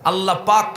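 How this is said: The second word begins with a p sound. "আল্লাহ পাক হয় না"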